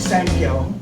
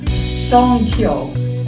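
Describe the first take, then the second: First: The word is said as 'sankyo'. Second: The word is said as 'songkyo'. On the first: The speaker calls it wrong. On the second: The speaker calls it right.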